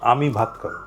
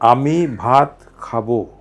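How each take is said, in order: First: The stress falls on the word আমি. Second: The stress falls on the word খাবো.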